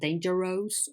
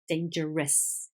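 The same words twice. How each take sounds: First: The final syllable has a full, clear vowel. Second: The final syllable has a weak, reduced vowel. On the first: The speaker calls it wrong. "It's not dangerous" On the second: The speaker calls it right. "it's dangerous"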